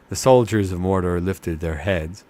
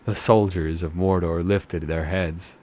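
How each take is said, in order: Both takes have the same delivery.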